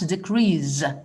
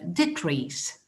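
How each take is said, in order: First: The final consonant is a buzzing Z sound. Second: The final consonant is a hissing S sound. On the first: The speaker calls it wrong. "les étudiants pronounce decrease, and this is not correct" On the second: The speaker calls it right. "both of them are pronounced with an S, not Z"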